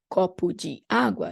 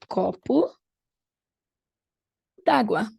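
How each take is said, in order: First: De is said as its own separate syllable. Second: De is merged into água, dropping its vowel. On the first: "instead of saying copo de água" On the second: "in a short way"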